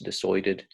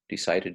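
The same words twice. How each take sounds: First: The vowel is said the Australian way. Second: The vowel is said the American way.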